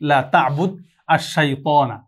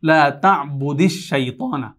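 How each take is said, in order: First: Ta'bud ends without a vowel, words kept apart. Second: An added i sound joins ta'bud to shaytana. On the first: "এখানে তা'বুদ সাকিন ছিল" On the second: "মিলিয়ে পড়ার জন্য যেটা এসেছে"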